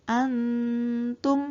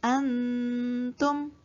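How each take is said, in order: No difference in how they are said.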